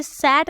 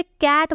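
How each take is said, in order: First: सैट with a hissed "s" onset; rejected soft C. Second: कैट with a "k" onset; hard C. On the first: Teacher repeating the wrong reading, soft "s" start. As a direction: say सैट as if C were "s". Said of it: "इसे सैट नहीं बोल रही हूँ". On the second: Teacher confirming the reading for learners, hard "k". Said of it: "इसे कैट बोल रही हूँ". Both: Shown as a demonstration.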